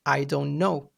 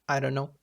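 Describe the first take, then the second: First: "I don't know" as three separate words; careful full form. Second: "I don't know" run together as "I dunno"; elided form. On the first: Teacher contrasting with elision, "I don't know" spoken out in full. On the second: Teacher giving an elision example, "I don't know" slurred into "I dunno". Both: Shown as a demonstration. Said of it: "omission of sounds".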